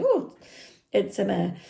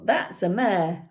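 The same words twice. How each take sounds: First: Put-on Irish accent. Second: Said in the usual way. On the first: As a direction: imitate a surprised Irish lad. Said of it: "I can't do an Irish accent, so excuse me". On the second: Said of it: "And I said".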